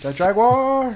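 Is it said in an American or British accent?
American. It is said in an American accent.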